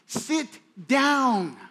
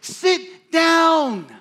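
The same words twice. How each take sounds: First: It is said at a normal, softer volume. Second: It is said loudly and forcefully.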